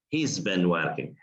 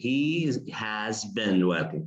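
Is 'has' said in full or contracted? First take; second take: contracted; full. First: The word has is contracted to he's. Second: The word has is said in full. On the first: The speaker calls it right. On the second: The speaker calls it wrong. "we don't say he has been"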